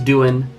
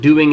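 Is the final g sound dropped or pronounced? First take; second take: dropped; pronounced. First: The word ends with a plain n sound. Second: The word ends with a full ng sound.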